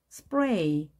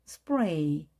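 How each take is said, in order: The two takes are said the same way.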